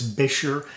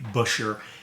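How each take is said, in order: First: It is said in a non-American pronunciation. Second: It is said in the American pronunciation. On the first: "I've been told it's Bisher" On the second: "the American pronunciation is generally Busher"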